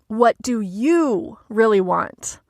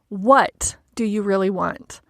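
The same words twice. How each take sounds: First: The stress is on "you". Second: The stress is on "what".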